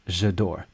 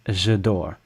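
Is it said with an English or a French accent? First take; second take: English; English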